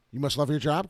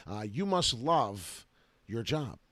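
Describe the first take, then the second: First: "You must love your job" rising, louder, like a question; ironic question. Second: Said in the usual way. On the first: Shown as a demonstration. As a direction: ask it with a sarcastic rise. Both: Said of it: "question mark?".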